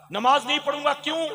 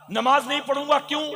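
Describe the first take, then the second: No difference in how they are said.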